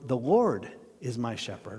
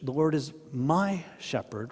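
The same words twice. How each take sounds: First: The stress is on Lord. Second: The stress is on shepherd.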